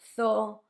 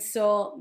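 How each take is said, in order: First: The word begins with a th sound. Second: The word begins with an s sound. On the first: "To us, it sounds like th" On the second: "the way some people make it"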